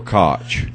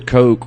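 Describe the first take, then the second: First: The name does not sound like 'Coke'. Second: The name sounds like the word 'Coke'. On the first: "It's either Coke or Koch" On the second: "It's either Coke or Koch"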